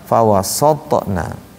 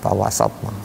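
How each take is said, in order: First: The vowel sounds rounded, drifting toward 'o'. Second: The vowel sounds open, with lips drawn back. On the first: The speaker calls it wrong. "kalau kita mulutnya nggak ditarik akan terbaca fawasatna" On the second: The speaker calls it right. "harusnya kan fawasa, fawasatna"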